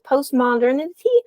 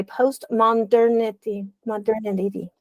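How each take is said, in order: First: Said in the usual way. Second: Postmodernity said slowly, syllable by syllable; postmodernity drawn out as a tricky word to pronounce; careful sounding-out. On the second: Real, not acted. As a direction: work carefully through the hard word postmodernity, stretching it out. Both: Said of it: "that's a hard word for me to say".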